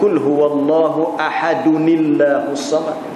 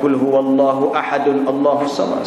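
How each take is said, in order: First: Ahadun joins the next word with an added i. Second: Ahadun ends on n before a separate Allahus. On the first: The speaker calls it right. "bila kita sambung" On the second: The speaker calls it wrong. "tak boleh kita nak baca"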